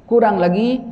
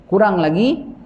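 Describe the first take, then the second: Both takes have the same delivery.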